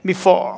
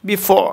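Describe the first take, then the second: No difference in how they are said.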